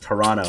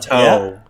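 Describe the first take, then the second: First: It is said the local way, second T dropped. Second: It is said the non-local way, second T pronounced.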